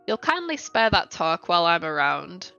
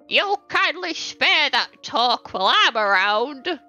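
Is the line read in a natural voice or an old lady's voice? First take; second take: natural; old lady. First: It is read in the reader's natural voice. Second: It is read in a put-on old lady voice. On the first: The speaker calls it wrong. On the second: The speaker calls it right.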